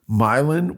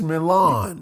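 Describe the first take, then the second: First: It uses a local anglicized pronunciation. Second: It uses the original foreign pronunciation. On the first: This is how the local place name is said. The speaker calls it wrong. "Indiana is the capital of mispronouncing French words" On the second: This is how the name is said elsewhere. The speaker calls it right. "which is Milan"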